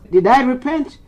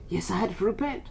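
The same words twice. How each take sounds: First: "Did I repent?" high, rising at the end; rhetorical question. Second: "Yes, I had to repent" much softer, dropped back; subdued answer. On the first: Bishop questioning himself before audience, "Did I repent?" pitched high. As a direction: put "Did I repent?" as a raised challenge. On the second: Bishop answering himself, "Yes, I had to repent" soft and subdued. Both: Real, not acted.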